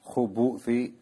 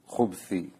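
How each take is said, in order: First: A short u vowel follows the b sound. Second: No vowel follows the b sound. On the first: "with the dhamma upon the ba" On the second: "put a sukoon on the ba"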